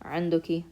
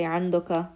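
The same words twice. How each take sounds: First: The demo's عندك said "anduki"; formal feminine. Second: The demo's عندك said "andaka"; formal masculine. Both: Shown as a demonstration. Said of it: "So you could say".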